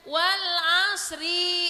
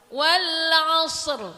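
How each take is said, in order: First: The word ends with an added i vowel. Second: The word ends on a stopped, bouncing r. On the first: The speaker calls it wrong. "gurunya salah bacanya" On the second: The speaker calls it right. "kalau mau diwakof berhenti wal asr. Roknya kedengeran dah meskipun sedikit"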